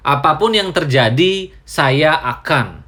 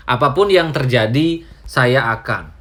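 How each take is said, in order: Both takes have the same delivery.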